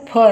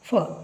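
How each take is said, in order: First: The consonant is a puffed p sound. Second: The consonant is a hissing f sound. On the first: The speaker calls it wrong. "ಫ ಅನ್ನಬಾರ್ದು ಅದನ್ನು" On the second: The speaker calls it right. "ಫ್ಯಾನ್ ಅಂತ ಹೇಳುವಾಗ ಹೇಳ್ತೀವಲ್ಲ ಹಾಗೆ ಫ"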